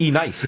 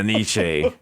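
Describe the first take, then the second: First: The name sounds like 'E nice'. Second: The name sounds like 'Nietzsche'.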